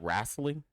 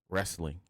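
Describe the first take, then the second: First: The word is said with a country pronunciation. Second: The word is said with its standard pronunciation.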